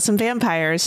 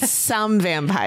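First: The stress falls on the word vampires. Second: The stress falls on the word some. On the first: The speaker calls it wrong. "Don't say it that way" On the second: The speaker calls it right. "You got to say some vampires"

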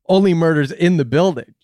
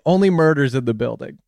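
First: The word 'only' does not carry the main stress. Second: The word 'only' carries the main stress. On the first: The speaker calls it right. "But it should be" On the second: The speaker calls it wrong. "Everyone is saying only. ... They're saying it wrong"

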